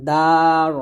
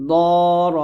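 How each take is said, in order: First: দার with light front D, drawn out; thin dal. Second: দর loud, with heavy rounded D; thick dad. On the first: Teacher giving an example, দার with thin D. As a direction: keep দার open, tongue tip at upper teeth. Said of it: "দালটা হবে পাতলা". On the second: Teacher tackling the hard letter, দর with thick D. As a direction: thicken দর with tongue side at upper molars. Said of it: "দদ মোটা হবে". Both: Shown as a demonstration.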